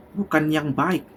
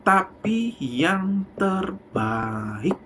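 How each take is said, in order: First: Said in the usual way. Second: "terbaik" drawn out very slowly; emphasize "terbaik" slowly; stress on terbaik. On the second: Shown as a demonstration. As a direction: linger on "terbaik". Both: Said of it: "saya tidak bilang baik".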